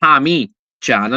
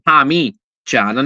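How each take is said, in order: First: The second syllable has an 'ee' vowel. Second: The second syllable has an 'ee' vowel.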